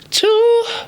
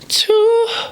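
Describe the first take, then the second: Both takes have the same delivery.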